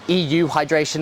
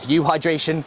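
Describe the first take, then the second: First: The word starts with an extra ee sound. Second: The word starts directly with a you sound. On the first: "that's how I pronounce it" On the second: "for some other people they'll just say U hydration"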